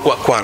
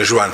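First: The name is said with a Spanish pronunciation. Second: The name is said with a Brazilian pronunciation. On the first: "lui dice che è spagnolo" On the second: "in brasiliano è Juan"

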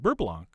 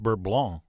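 First: It is said with an American pronunciation. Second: It is said with a French pronunciation. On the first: "the Americanized" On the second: "in French it's correctly pronounced"

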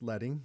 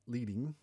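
First: The first vowel is short, as in 'bed'. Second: The first vowel is long, as in 'bead'. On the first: The word refers to the metal of old hand-set type. The speaker calls it right. "It's pronounced leading" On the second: The word is read as guiding or going first. The speaker calls it wrong. "not leading, like you might think"

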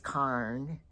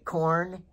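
First: The vowel sounds like 'ar'. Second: The vowel sounds like 'or'.

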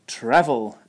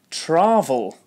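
First: The first vowel is a short 'a' as in 'apple'. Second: The first vowel is not a short 'a' as in 'apple'. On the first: The speaker calls it right. "again with the short vowel A like in apple" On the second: The speaker calls it wrong. "I hear travel instead of"

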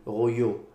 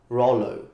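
First: The name is pronounced the French way. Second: The name is pronounced the English way. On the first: "if you want to pronounce it the French way" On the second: "if you want to pronounce it the English way"

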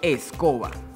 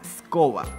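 First: The word is said with its opening e sound. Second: The word is said without its opening e sound. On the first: "Cuando yo la completo con el sonido E, puedo leer" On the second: "Sin la letra E suena"

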